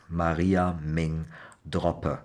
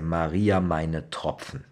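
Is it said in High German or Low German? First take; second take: Low German; High German. First: It is said in the Low German dialect. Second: It is said in standard High German.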